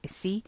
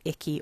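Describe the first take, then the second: First: The middle consonant is a soft S sound. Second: The middle consonant is a hard K sound. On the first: "but Issy sounds better" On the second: "I'm not sure if you pronounced it Icky or Issy"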